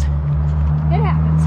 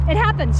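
First: It happens dropped very low and slow; deep slow drawl. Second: Said in the usual way. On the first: Shown as a demonstration. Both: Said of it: "repeated as a contrast".

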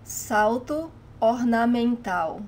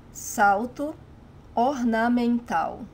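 The two takes are said the same way.

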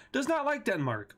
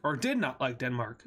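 First: "not" lifted high in pitch; higher, emphatic "not"; stress on NOT. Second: "did" stressed as a correction, lower line. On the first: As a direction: punch the word "not", pitched up. States it, then corrects the tense. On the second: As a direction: correct yourself by leaning on "did". Corrects himself to past tense. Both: Real, not acted.

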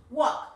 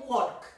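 First: Walk. said as wok, the L silent; correct silent L. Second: Walk said with the L sounded, as the error; teacher sounds out walk with an audible L to show the mistake; wrong pronunciation with L. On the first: Teacher modelling the right sound for kids, Walk. with a silent L. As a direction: model Walk. cleanly, no L at all, like walkie-talkie. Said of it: "Yes, it's walk". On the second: Teacher showing kids the wrong way, walk with the L sounded. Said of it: "Acordate que esta L no suena". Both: Shown as a demonstration.

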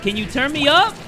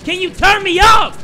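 First: Higher-pitched, rising question; insistent request. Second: High, loud yelled question; shouted demand. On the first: Gamer asking to be turned up, insistent question. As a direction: ask insistently, lifting the end. First, milder take of repeated demand. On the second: Gamer demanding to be turned up, high shout. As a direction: yell the demand with full force. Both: Acted.

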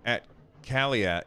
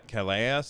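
First: Calais said as "ka-lee", falling; second try at pronunciation. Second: Calais said as "ka-la", with a questioning rise; doubtful pronunciation. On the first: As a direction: Calais tried again as "ka-lee". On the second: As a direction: Calais as "ka-la", asking if it's right. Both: Shown as a demonstration. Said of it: "I don't know how to say that".

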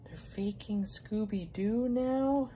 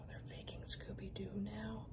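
First: High, slow, incredulous question; disbelieving. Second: Sighed, breathless whisper. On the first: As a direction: ask it like you can't believe it. Repeats in disbelief. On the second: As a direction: whisper it in dismay. Disbelief at fake figure. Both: Real, not acted.

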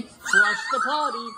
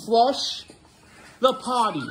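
First: Sung, very high, slow stretched "Flush the potty" with rising "potty"; sung, stretch it way up like a silly song; drawn-out singing. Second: High sing-song "Flush the potty". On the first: Sung, dad exaggerating so son repeats, drawn out and very high. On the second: Dad prompting son to repeat after him, sing-song. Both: Shown as a demonstration. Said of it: "Say it with me".

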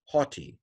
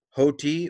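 First: "haughty" said as "HAH-tee"; alternative open-o pronunciation. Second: "hoti" said as "HOH-tee"; long-o pronunciation. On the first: Teacher gives others' variant to learners, "haughty" as "hah-tee". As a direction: open the first vowel of "haughty" to ah. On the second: Teacher models Greek for learners, "hoti" as "hoh-tee". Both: Shown as a demonstration. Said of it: "or some would say haughty".

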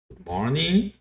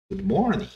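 First: "Good morning" with a polite, firm tone. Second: Said in the usual way. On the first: Shown as a demonstration. ("Good morning" com entonação educada e firme) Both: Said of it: "com uma entonação mais educada".

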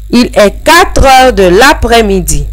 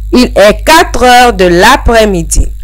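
Both takes have the same delivery.

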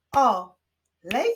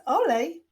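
First: "Olej" split as loud O, pause, lej; two separate beats on "Olej"; syllable by syllable. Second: Said in the usual way. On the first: Shown as a demonstration. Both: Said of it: "wyklaszczmy sylaby".

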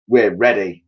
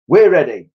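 First: Firm answer in the reader's own pitch; lightly voiced monkeys, ready to go; monkeys' reply. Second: High, loud little-bird answer; birds' reply. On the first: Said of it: "said the monkeys". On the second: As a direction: pipe it up like eager birds. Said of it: "said the birds". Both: A narrator's reading.

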